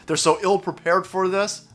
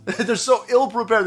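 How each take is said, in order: First: Said in the usual way. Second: "ill-prepared" said again through a slow chuckle; laughing repeat. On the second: Real, not acted. Mocking the troops' setup, laughing as he repeats it. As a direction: laugh it out, shaking your head.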